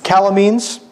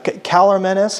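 First: "Calormenes" said as KAL-uh-meenz, rising to a question; suggested pronunciation. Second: "Calormenes" said as KAL-er-MEN-us, rising to a question; tentative pronunciation. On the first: Speaker trying a listener's suggestion, questioning "Calormenes" as KAL-uh-meenz. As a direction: echo "Calormenes" with a long "meenz" ending. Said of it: "I say Calormenes".

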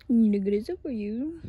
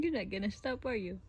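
First: Much louder playful teasing. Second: Said in the usual way. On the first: Real, not acted. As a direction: call it out loud and playful.

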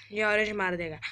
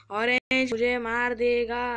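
First: Said in the usual way. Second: Loud, drawn-out mock panic; hammed-up cry of impending doom; playful alarm. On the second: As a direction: wail it loudly and slowly. Alarm at being killed in game.

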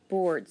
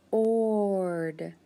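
First: Said in the usual way. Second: "b-ord" broken into sound parts. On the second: Shown as a demonstration.

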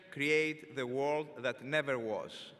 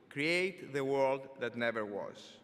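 The two takes are said the same way.

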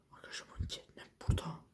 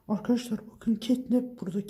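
First: Hushed, telling viewers quietly; whispered to the viewers. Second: Said in the usual way. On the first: Real, not acted. Whispering, monster near.

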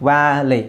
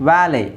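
Both takes have the same delivery.

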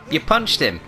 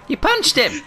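First: Said in the usual way. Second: Much higher squeaky repeat; mock squeal. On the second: Gamer mocks his teammate's punch in a squeaky high voice. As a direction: squeak it back like a cartoon.

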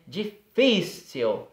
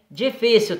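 First: "Difícil" very slowly in pieces, stretching the middle FÍ; stressed syllable drawn out. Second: Said in the usual way. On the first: Shown as a demonstration. Teacher showing pupils the accent in "Difícil", stretched middle syllable. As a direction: break up "Difícil" and dwell on its second syllable. Shows where the accent falls.

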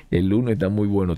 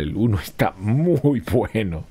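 First: Said in the usual way. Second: "muy" stretched out long for emphasis; drawn-out praise. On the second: Real, not acted. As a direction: linger on "muy" before landing on "bueno". Repeats praise in marked, then usual way.

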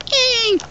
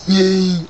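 First: Voice crack. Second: Said in the usual way. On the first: Acted. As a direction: voice cracking up very high. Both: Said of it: "voice crack".

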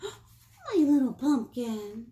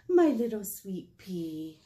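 First: Gasp, then slow, louder, doting words; fond greeting. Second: Slow, fond auntie voice; doting auntie. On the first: Dad picking up daughter, slow doting pet name with a gasp. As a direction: dote on her as he arrives. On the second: Auntie arriving to fetch child, slow doting pet name. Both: Acted.

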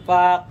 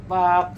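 First: "pak" snapped out louder as a model strikes a pose; louder pose call. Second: Said in the usual way. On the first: Shown as a demonstration. Posing for the camera, calls "pak" louder. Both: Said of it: "basic posing".

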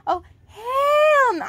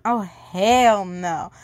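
First: High, slow fake crying; mock wail. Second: Said in the usual way. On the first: Reader pretends to cry over the story, high and wailing. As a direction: ham up a sobbing protest.

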